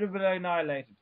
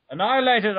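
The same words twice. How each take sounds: First: Said in the usual way. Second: "Annihilated" repeated, hit louder and firm; emphatic restatement. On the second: Real, not acted. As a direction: hammer "Annihilated" home with mock grandeur. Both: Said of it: "I say".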